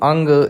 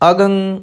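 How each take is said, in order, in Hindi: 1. नासिक्य ध्वनि g से पहले आती है। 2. नासिक्य ध्वनि g के बाद आती है।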